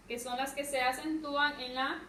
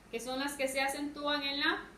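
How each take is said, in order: Both takes have the same delivery.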